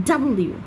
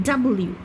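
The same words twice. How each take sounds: No difference in how they are said.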